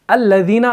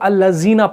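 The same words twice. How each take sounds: First: The middle consonant is a soft th sound. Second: The middle consonant is a buzzing z sound. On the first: The speaker calls it right. "जाल का जो मखरज है ना, आपकी जो नोक होती है जुबान की ... दांतों से बाहर रहती है" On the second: The speaker calls it wrong. "बहुत सारे लोग अल्लज़ीना पढ़ते हैं, जीना बिल्कुल नहीं पढ़ना है"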